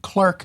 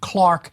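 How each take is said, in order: First: The first vowel sounds like 'er' in 'her'. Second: The first vowel sounds like 'ar' in 'car'. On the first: This is the American way of saying it. "the American pronunciation" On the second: This is the British way of saying it. "the British pronunciation"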